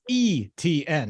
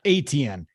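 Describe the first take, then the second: First: The name begins with an 'ee' sound. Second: The name begins with an 'ay' sound. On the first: The speaker calls it right. "his last name is E T N" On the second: The speaker calls it wrong. "not A T N"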